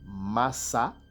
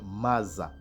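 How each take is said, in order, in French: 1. La consonne du milieu est un S sifflant. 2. La consonne du milieu est un Z sonore.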